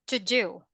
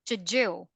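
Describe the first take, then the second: Both takes have the same delivery.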